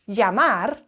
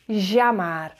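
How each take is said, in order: First: The double L is a short y sound. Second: The double L is a longer sound. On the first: This is the usual pronunciation in most places. "you won't necessarily hear llamar" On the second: This is how it is said in Buenos Aires. "you'll hear llamar"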